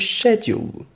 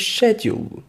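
First: It is said with a British English pronunciation. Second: It is said with a British English pronunciation.

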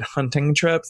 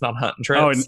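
First: The g at the end of hunting is pronounced. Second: The g at the end of hunting is dropped.

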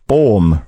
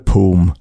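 First: The vowel is an open 'aw' sound. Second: The vowel is a closed 'oo' sound. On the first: The speaker calls it right. "Ett O på estniska är som ett Å på svenska" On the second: The speaker calls it wrong. "Inte Poom"

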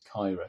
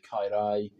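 First: It is said in the local Cardiff accent. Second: It is said as elsewhere in Wales. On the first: "there's a very particular Cardiff accent. So the local people call this Cairo" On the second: "If you were in a different part of Wales, you would probably pronounce that word quite differently"

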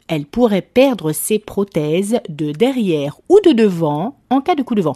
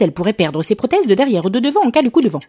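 First: It is read slowly. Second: It is read fast.

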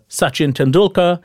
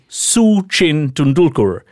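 First: The first name is said the usual Indian way. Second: The first name is said like 'Su-Chin'. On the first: The speaker calls it right. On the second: The speaker calls it wrong.

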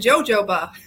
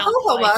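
First: The word starts with an English J sound. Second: The word starts with an H sound. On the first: The speaker calls it wrong. "I always called it jojoba" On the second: The speaker calls it right. "their J's are pronounced like an H"

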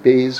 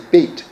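First: The word ends with an s sound. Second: The word ends with a t sound. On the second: "but really you would say beit"

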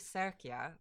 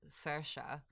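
First: The 'ch' is said as a k sound. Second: The 'ch' is not said as a k sound. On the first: This is how the Italian family says it. The speaker calls it right. "It's actually Sercia" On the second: This is how the American family says it. The speaker calls it wrong. "my entire American family has always called it Sercia"

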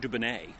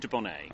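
First: It is said the way Americans pronounce it. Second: It is said the way the speakers pronounce it. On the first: This is how Americans say it. "Americans say Dubonnet" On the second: This is how the speakers themselves say it. "We say Dubonnet"

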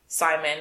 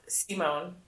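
First: The name is said with English pronunciation. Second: The name is said with Swedish pronunciation.

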